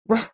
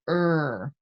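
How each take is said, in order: First: The R is said as a short growled ruh. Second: The R is said as a vowel-like er. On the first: The speaker calls it right. "kind of like a dog growl" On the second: The speaker calls it wrong. "Some people teach that consonant R as er"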